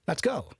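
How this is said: The voice falls at the end, like a statement. It is a statement. The speaker calls it right. "your tone should be of an affirmative sentence"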